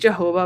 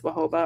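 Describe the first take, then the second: First: The word begins with a hard j sound. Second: The word begins with a soft h sound. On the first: The speaker calls it wrong. "I always say Jehovah" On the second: The speaker calls it right. "but I think it's Wahoba"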